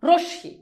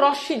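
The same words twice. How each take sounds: First: "রশ্মি" as rosh-shi, with a clear o; correct pronunciation. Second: "রশ্মি" with an open a, as rosh-shi misread rash-shi; wrong pronunciation. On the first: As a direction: split "রশ্মি" into rosh and shi, rounded first vowel. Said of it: "একটা ওকার উচ্চারিত হচ্ছে". ("রশ্মি"-তে র-এ ও-কার, শ দ্বিত্ব) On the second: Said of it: "উচ্চারণটা কিন্তু রশ্মি না". ("রশ্মি"-তে ও-কার ছাড়া ভুল উচ্চারণ) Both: Shown as a demonstration.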